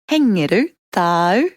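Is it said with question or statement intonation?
question. It is said with question intonation. Asks whether the listener has a cat. "can be questions with a change of inflection"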